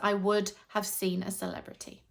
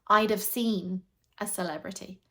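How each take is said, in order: First: I would have is said as full words. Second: I would have is squished into I'd have.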